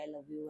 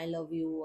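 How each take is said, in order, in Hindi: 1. यह धीमा और दूर से सुनाई देता है, जैसे गूंज। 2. यह ज़ोर से बोला जाता है, जैसे चिल्लाना। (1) "बड़ी दूर से आवाज वापस आती है" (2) "बड़ी जोर से बोलते हैं"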